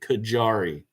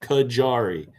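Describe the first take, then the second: First: The middle consonant is a hard J. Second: The middle consonant is a hard J.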